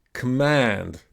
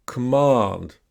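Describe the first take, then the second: First: "Command" with American flat A, as in "pan"; American pronunciation. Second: "command" with a long AH, as in British English; British pronunciation. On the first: Teacher repeats the word corrected, American short A in "Command". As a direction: say "Command" with the vowel of "cat" in American English. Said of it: "in American English, it's gonna be a". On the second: Teacher models a word for repeating, British AH in "command". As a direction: say "command" slowly with broad AH in the second syllable. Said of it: "in British English, we say ah".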